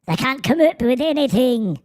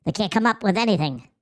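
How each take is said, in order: First: High mock Irish lilt; squeaky-small hammed-up Irish accent; Irish little person. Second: Said in the usual way. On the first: Streamer redoing the accent on request, mock Irish little person. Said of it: "like an Irish little person". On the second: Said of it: "Someone asked me to do the accent again".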